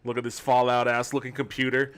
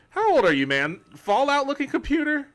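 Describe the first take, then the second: First: Said in the usual way. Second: High, loud, incredulous squeal at Fallout looking computer; mock outrage. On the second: Real, not acted. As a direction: act offended by the comment, pitch shooting up.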